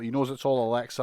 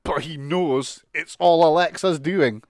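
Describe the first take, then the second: First: Said in the usual way. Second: Slow, loud, put-on Randy voice, lightly hammed; slow, loud mock wrestler voice; mock Randy Orton. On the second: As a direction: drag out "it's all Alexa's doing" like a paranoid wrestler. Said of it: "He says".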